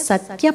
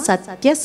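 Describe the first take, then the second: Both takes have the same delivery.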